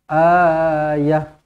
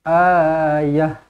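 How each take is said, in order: First: The final vowel is kept short. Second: The final vowel is kept short.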